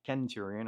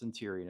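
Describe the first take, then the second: First: The word begins with a hard k sound. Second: The word begins with a soft s sound. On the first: The speaker calls it wrong. "and not Kenturion" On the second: The speaker calls it right. "I know it's pronounced Centurion"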